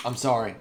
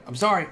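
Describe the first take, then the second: First: Said in the usual way. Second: High, loud repeated apology; raised-voice, emphatic sorry; insistent apology. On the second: Real, not acted. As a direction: insist on it, louder and higher. Apologizes for ending.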